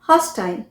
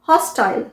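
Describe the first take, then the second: First: It is said with a British pronunciation. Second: The same.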